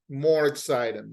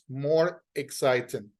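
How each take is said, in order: First: The two words run together without a break. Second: There is a pause between the two words. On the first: "you drag, you put together the words" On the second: "You make a pause"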